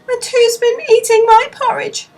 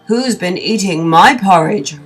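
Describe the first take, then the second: First: It is said sadly in Baby Bear's voice. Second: It is roared loudly in Father Bear's voice.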